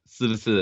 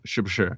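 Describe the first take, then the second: First: It starts with a flat s, tongue not curled. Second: It starts with sh, tongue curled back. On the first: This is how a regional accent says it. "doesn't do that H sound. It doesn't curve their tongue" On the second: This is the standard pronunciation. "instead of shi shi"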